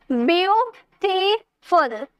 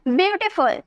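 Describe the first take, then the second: First: ब्यूटीफुल slowly in three beats, ब्यू, टी, फुल; split into syllables. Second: Said in the usual way. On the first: Shown as a demonstration. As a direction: pause after each stretched syllable of ब्यूटीफुल. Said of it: "तीन syllable आए ना". (ब्यूटीफुल को तीन हिस्सों में धीरे तोड़कर) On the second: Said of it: "अब इसे बोलिए".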